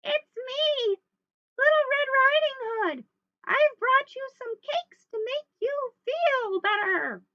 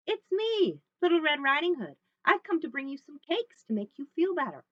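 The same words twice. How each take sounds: First: Loud, very high falsetto, hammed up; wolf's little-girl voice. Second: Put-on higher, louder little girl voice; Little Red. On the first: Wolf tricks Grandma at the door, loud falsetto girl voice. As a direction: fake a little girl, squeaky high and drawn out. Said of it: "in his very best little girl voice". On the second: Little Red announces herself at Grandma's, high and lively. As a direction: call brightly through the door.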